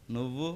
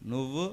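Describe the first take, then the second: No difference in how they are said.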